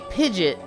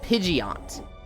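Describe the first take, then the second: First: The name ends in a short, unstressed 'it' sound. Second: The name ends in a stressed 'ee-oh' sound. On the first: "I would always say Pidgeot ... just it sound" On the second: "you were putting too much emphasis on the E O"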